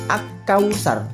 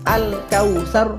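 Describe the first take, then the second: First: The l sound merges into the following k. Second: The l sound is pronounced clearly before k. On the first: The speaker calls it wrong. "tidak boleh kita membaca ak-kautsar" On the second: The speaker calls it right. "harus dibaca al-kautsar. Al-nya dibaca jelas dan terang"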